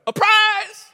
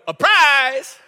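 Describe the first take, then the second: First: Put-on high, loud, excited little-boy shout; grandson's shout. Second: Grandson shouting. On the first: Grandfather imitating grandson announcing a surprise, high excited shout. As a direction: cry it out like an eager grandson. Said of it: "and he'll go". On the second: Retold or imitated. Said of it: "he'll go".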